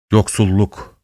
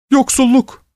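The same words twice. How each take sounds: First: Understated moan on "yoksulluk". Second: Very high, tearful plea on "yoksulluk"; pleading. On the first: Wind echoing the word, moaning. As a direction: groan "yoksulluk" like the wind, without raising the voice. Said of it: "diye inledi". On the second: Old woman begging mercy for the poor, pleading. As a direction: wail "yoksulluk" imploringly, high in the voice. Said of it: "diye yalvarıyordu". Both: A narrator's reading.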